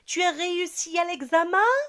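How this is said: The voice rises at the end. It asks whether it is true. "l'intonation de ma voix va changer"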